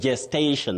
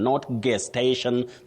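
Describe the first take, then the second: First: The word begins with a J sound. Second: The word begins with a hard G sound. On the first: The speaker calls it right. "the letter is G, but the sound is J" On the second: The speaker calls it wrong. "the way some people innocently say"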